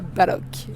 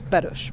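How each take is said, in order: First: The name ends with a hard k sound. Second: The name ends with a soft sh-like sound. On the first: The speaker calls it wrong. "qui ne se prononce pas Balok" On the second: The speaker calls it right. "mais qui se prononce Baloche"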